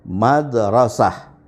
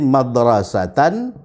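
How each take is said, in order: First: The word ends with an h sound. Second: The word has a t sound near the end. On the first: The reader stops on this word. "kalau kita berhenti" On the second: The reading continues without stopping. "dia menghasilkan bunyi T"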